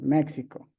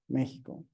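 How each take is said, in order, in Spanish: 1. La x se pronuncia como un sonido ks. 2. La x se pronuncia como un sonido j gutural. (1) "Muchas personas lo hacen de esa forma, pero no es la correcta" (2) "Estamos haciendo eso"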